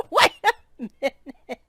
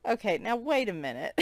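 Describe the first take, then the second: First: Laughing. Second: Said in the usual way. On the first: Real, not acted. Repeats it while laughing.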